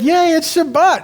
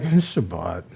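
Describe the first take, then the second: First: It is said with delight and excitement. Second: It is said flatly, without any delight.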